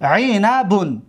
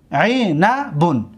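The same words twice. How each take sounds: First: Said in the usual way. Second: Syllable by syllable. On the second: Shown as a demonstration. Teacher repeats it syllable by syllable.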